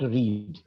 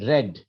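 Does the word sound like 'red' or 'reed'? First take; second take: reed; red. First: The vowel sounds like the one in reed. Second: The vowel sounds like the one in red. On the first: It is the present tense. The speaker calls it wrong. "not read" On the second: It is the past tense. The speaker calls it right. "the past tense of read is red, as as in the color red"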